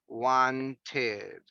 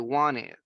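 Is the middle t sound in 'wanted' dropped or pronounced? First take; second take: pronounced; dropped. First: The middle t sound is clearly pronounced. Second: The middle t sound is dropped. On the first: "In past is wanted" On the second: "in daily conversations, we don't pronounce the letter T"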